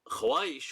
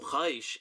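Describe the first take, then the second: First: A w sound follows the kh. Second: No w sound follows the kh. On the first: The speaker calls it wrong. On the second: The speaker calls it right.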